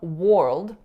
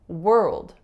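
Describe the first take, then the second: First: The vowel sounds like 'or' in 'for'. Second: The vowel sounds like 'er' in 'her'. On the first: The speaker calls it wrong. "I'm not saying world" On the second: The speaker calls it right. "I'm saying world"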